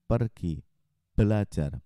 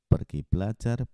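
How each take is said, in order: First: The p sounds are soft without popping bursts. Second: The p sounds make loud popping bursts. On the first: "Sekarang saya pakai pop filter" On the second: "Tanpa pop filter"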